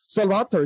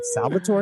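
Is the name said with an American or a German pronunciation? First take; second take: German; American. First: The name is said with a German pronunciation. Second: The name is said with an American pronunciation.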